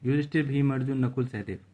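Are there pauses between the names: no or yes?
no. The names run together without any pauses. Two names seem merged into one. The speaker calls it wrong. "वरना हम ऐसे पढ़ते ... ऐसे लगता है कि दो नाम एक साथ क्या हैं, मिले हुए हैं"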